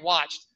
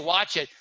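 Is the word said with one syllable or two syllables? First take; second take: one syllable; two syllables. First: It is one syllable ending in a t sound. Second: An extra vowel syllable is added after 'watch'. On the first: The speaker calls it right. "it's watched, right?" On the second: The speaker calls it wrong. "people say watch it, but it's not watch it"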